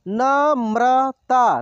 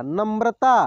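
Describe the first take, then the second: First: Namrata drawn out slowly, syllable by syllable; slow sounding out. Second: Said in the usual way. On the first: Shown as a demonstration. Teacher slowly sounds out Namrata for students. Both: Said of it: "एक एक मात्रा को अलग अलग करके".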